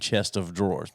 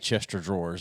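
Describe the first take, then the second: First: The first part is said as 'chest of'. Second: The first part is blended into 'Chester'. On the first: This is the intended standard form. "But they mean chest of drawers" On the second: This is how it is said in the South. "most people in the South say Chester drawers"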